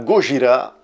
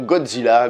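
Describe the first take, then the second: First: The name ends with a 'jira' sound. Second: The name ends with a 'dzilla' sound. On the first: The speaker calls it right. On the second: The speaker calls it wrong.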